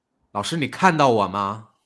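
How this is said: It is said in an angry, annoyed tone. "很生气地说"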